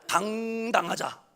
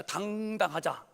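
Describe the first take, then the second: First: 당당하자 said slowly and louder; louder proclamation. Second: Said in the usual way. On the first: Shown as a demonstration. Preacher repeats 당당하자 louder to rally the church.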